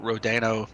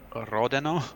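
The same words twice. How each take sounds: First: The R is said plain, not rolled. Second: The R is rolled with a trill. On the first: The speaker calls it wrong. "I apologize if I'm mispronouncing his last name" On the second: The speaker calls it right. "So I have to roll the R's"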